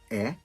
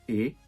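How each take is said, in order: First: The vowel is open, like 'eh'. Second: The vowel is closed, like 'ay'. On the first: "letra E aberta" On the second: "a letra E fechada"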